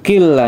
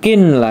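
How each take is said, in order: First: The n merges into a doubled l sound. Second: A separate n sound is heard before the l. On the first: The speaker calls it right. "nunnya tidak dibaca, langsung masuk ke huruf la-nya" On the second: The speaker calls it wrong. "tidak kinla ya"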